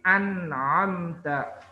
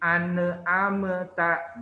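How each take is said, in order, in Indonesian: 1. Bunyi n ditutup tanpa pantulan. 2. Bunyi n dipantulkan terbuka dengan vokal. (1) "tapi an'amta" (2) "nunnya dikol-kolahkan ... bukan ane amta"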